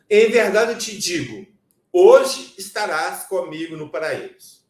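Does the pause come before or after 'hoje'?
before. The pause comes before 'hoje'.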